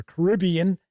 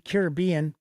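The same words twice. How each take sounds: First: Caribbean said as kuh-RIB-ee-un; Caribbean stressed second syllable. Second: Caribbean said as care-ih-BEE-un; Caribbean stressed third syllable. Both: Shown as a demonstration. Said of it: "however you like to pronounce it".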